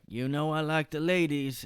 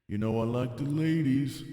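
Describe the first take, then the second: First: It is said in the speaker's normal voice. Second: It is said in a lower, rough voice.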